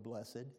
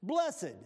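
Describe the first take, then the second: First: Soft, tender, lower and quieter. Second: Proclaimed. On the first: Real, not acted. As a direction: savour the word blessed lovingly. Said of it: "I love that word". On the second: Acted. Reading the key word aloud.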